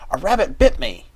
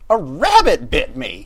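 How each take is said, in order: First: The stress falls on the word bit. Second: The stress falls on the word rabbit. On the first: The biting itself is the news. The speaker calls it right. "that would have been okay" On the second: It is surprising that a rabbit was the biter. The speaker calls it wrong. "He emphasized the word rabbit"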